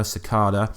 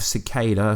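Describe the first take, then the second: First: Stressed "KAH" inside Cicada. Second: Stressed "KAY" inside Cicada. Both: Shown as a demonstration. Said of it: "whatever you wanna call him".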